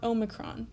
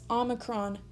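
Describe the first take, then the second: First: The first vowel sounds like 'oh'. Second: The first vowel sounds like 'ah'. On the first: The speaker calls it wrong. "not Omicron" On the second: The speaker calls it right. "start pronouncing the actual name of the Greek letter as Omicron"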